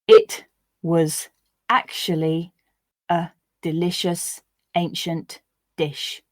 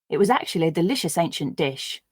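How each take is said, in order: First: The sentence is read slowly, word by word. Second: The sentence is read at a natural, faster pace. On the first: "I'll read the sentences once, slowly" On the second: "I'll read once at a more natural pace"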